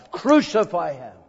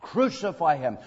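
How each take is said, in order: First: Preacher voicing the crowd's louder demand; crowd shout. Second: Crucify him, said firmly at normal volume; the crowd's demand, held back a little; preacher voicing the crowd, restrained; crowd cry. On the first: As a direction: push it out like the baying crowd. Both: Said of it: "For they cried".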